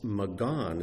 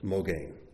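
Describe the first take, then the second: First: The first vowel sounds like a. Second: The first vowel sounds like o. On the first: "can be pronounced Magan as well" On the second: "This is the word for shield"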